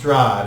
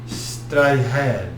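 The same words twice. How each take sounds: First: The word has its ordinary English pronunciation. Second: The word has an unfamiliar, accent-like pronunciation. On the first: This is how outsiders would say the name. The speaker calls it wrong. "it's not pronounced Strahd" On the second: This is how the word is said in its original language. The speaker calls it right. "It's like Strahd"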